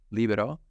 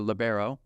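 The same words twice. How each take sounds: First: It is said with the Italian pronunciation. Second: It is said with the American pronunciation. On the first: This is the form used in the international game. "it is an Italian term, libero" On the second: This is the form used in America. "in America, it's it's morphed into libero"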